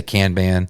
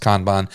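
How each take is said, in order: First: Kanban with flat A sounds, like "can-ban"; alternative pronunciation. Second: Kanban with open AH vowels, like "kahn-bahn"; preferred pronunciation. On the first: Citing how some people say it, alternative pronunciation. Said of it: "Some people say Kanban". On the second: Speaker giving listeners the likelier version, preferred pronunciation. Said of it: "I'm pretty sure it's pronounced". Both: Shown as a demonstration.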